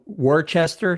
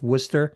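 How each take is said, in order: First: Every written syllable of the word is pronounced. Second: The word is shortened, sounding like 'Wooster'. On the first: The speaker is not from the area. The speaker calls it wrong. "is spelled Worcester. So if you're not from here, you that's how you would pronounce it" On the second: The speaker is a local. The speaker calls it right. "but it's Worcester. W O O S T E R, it's pronounced like"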